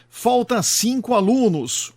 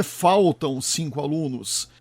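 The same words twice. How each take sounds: First: "falta cinco alunos" said as the faulty example, rising on "alunos"; wrong agreement example. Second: Said in the usual way. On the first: Shown as a demonstration. Narrator showing viewers a grammar error, lightly raised example voice. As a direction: present "falta" as the mistake, pitched up. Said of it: "O correto é faltam cinco alunos". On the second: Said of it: "O correto é".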